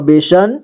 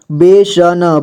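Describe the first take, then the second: First: Said in the usual way. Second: बेसन drawn out, final न sounded separately; syllable by syllable. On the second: Shown as a demonstration. Teacher showing learners how to read बेसन, syllable by syllable. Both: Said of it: "जोड़ जोड़ करके".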